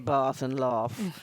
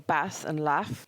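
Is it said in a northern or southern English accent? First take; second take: southern; northern. First: It is said in a southern English accent. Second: It is said in a northern English accent.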